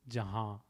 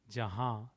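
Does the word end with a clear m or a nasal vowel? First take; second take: nasal vowel; nasal vowel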